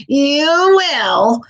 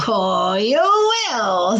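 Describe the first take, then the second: First: Higher and louder gleeful witch. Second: Slow, drawn-out sly witch promise; knowing witch. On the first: Witch gloating at the frog, higher and louder. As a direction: burst out with mocking glee. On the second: Witch assuring the frog he'll feel princely, slow and sly. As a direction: stretch it out, teasing. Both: A narrator's reading. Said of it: "She was laughing up her flapping sleeve".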